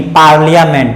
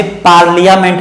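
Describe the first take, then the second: First: पार्लियामेंट run together as paar-lya-ment; short i in पार्लियामेंट, falling end; correct pronunciation. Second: पार्लियामेंट with li-yaa stretched out; over-sound the i in पार्लियामेंट; wrong pronunciation. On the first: Teacher corrects the misreading, correct pronunciation. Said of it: "ऐसे पार्लियामेंट नहीं". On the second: Teacher shows the reading to avoid, wrong pronunciation. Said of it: "पार्लियामेंट नहीं". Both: Shown as a demonstration.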